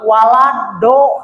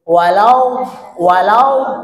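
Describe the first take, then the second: First: The consonant is a plain d sound. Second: The consonant is the emphatic, lateral sound. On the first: The speaker calls it wrong. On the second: The speaker calls it right.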